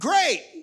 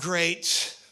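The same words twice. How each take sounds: First: It is said with delighted, enthusiastic excitement. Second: It is said with weary, fed-up exasperation. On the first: The thing is wonderful. "oh my gosh, that's fantastic" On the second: The same annoying thing is happening again. "not that again"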